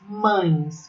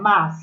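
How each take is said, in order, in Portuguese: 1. A palavra é dita como 'mães'. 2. A palavra é dita como 'mas'. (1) "Não me diga mães" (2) "É mas"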